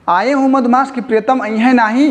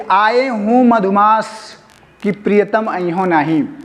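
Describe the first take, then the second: First: The voice rises at the end, as a question. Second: The voice falls at the end, as a statement. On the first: The beloved will surely come. "यहाँ प्रश्नवाचक चिन्ह लग गया है" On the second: The beloved will not come. "दुखित होकर कहती है"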